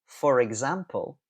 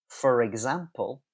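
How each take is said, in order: No difference in how they are said.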